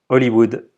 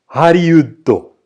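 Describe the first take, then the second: First: The word is said with French pronunciation. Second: The word is said with Japanese pronunciation. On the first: "en bon français" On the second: "en japonais"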